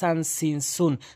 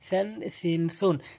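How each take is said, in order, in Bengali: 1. প্রথম ব্যঞ্জনটি সাধারণ s। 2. প্রথম ব্যঞ্জনটি th ধ্বনি। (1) "অধিকাংশ লোক ভুল বলে ... সিনের উচ্চারণ করে ফেলে" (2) "জিব্বার আগে দাঁতে রাখা থেকে"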